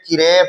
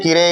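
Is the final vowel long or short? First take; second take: long; short. First: The final vowel is drawn out long. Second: The final vowel is short and clipped. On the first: The speaker calls it right. "किरे पढ़ेंगे, खींच के पढ़ेंगे रे को" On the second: The speaker calls it wrong. "किरे ही नहीं पढ़ेंगे"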